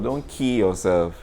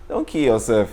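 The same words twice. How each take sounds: First: The word kill is strongly emphasized and stretched. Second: The word kill is said without special emphasis.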